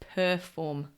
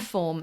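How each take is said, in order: First: The word is said with a careful, standard pronunciation. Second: The word is said with a careless, slurred pronunciation. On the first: The speaker calls it right. "instead of perform" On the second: The speaker calls it wrong. "Perform instead of perform"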